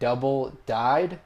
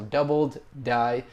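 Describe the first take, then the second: First: The d sound ends the second word. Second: The d sound ends the first word. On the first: The speaker calls it wrong. "I was saying the word double died" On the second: The speaker calls it right. "the actual way to pronounce it"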